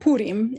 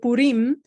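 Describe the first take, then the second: First: The stress is on the first syllable. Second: The stress is on the last syllable.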